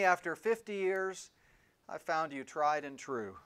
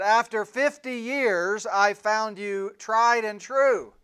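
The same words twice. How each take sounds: First: It is said at a normal speaking volume. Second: It is said almost shouting, very loud.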